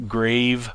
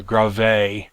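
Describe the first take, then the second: First: "grave" like English "grayv", one syllable; "grave" rhymes with "wave". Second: "grave." as two syllables, "grah-VAY"; "grave." said "grah-vay", stress on the end; Greek-style grave. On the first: Teacher giving the first of two ways to say "grave". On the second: Teacher giving the other way to say "grave.". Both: Shown as a demonstration. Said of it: "I've heard it pronounced both ways".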